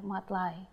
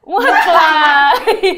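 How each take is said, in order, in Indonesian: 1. Namanya diakhiri dengan bunyi 'eye'. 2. Namanya diakhiri dengan bunyi 'ee'.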